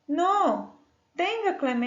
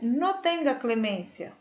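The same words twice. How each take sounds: First: There is a pause after no. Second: It is said without a pause after no.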